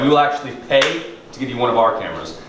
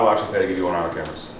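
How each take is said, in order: First: Key words are emphasized with lively pitch. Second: Every word is said on one flat pitch. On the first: The listener can tell which part is important. The speaker calls it right. "he's emphasizing it" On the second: The listener cannot tell which part is important. The speaker calls it wrong. "If it sounds monotone like that"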